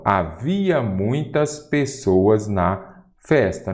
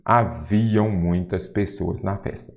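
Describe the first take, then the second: First: HAVIA slowly, ending in an open -ia with no nasal; singular HAVIA. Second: HAVIAM with a nasal -iam ending; wrong plural HAVIAM. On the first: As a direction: stretch out HAVIA, ending on a plain -a sound. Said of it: "Nada de haviam muitas pessoas". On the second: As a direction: end HAVIAM on a nasal "ão"-like glide, as a counterexample. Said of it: "Nada de haviam". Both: Shown as a demonstration.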